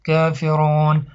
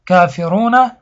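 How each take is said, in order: First: کافرون stopped on a silent final n, drawn out slowly; slow pause form کافرون ending in kaferun, no final vowel; pausal form. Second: کافرون read through with its final vowel, kaferuna; کافرون with the ending vowel voiced, not stopped; continuous reading form. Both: Shown as a demonstration. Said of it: "اما وقتی که وقف کرده شود".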